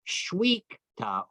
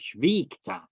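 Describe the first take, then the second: First: The sound after 'sh' is a W. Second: The sound after 'sh' is a V. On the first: "Either you can say with a V or a W" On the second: "Either you can say with a V or a W"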